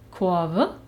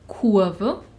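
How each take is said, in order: First: The vowel sounds like an o. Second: The vowel sounds like a u. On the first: "Ebenso rede ich von" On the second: "Was eigentlich"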